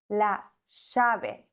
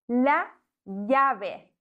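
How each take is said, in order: First: The double L is said the Argentine way. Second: The double L sounds like a German J. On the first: "Ein Argentinier würde sagen" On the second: "Doppel-L wird im Castellano wie ein deutsches J ausgesprochen"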